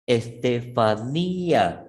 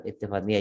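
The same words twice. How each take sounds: First: Estefanía said slowly, the í stressed; Estefanía with accent. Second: Said in the usual way. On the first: Shown as a demonstration. Teacher to class, drawing out Estefanía's stressed í. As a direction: stretch Estefanía, leaning on the í. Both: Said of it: "Estefanía lleva tilde".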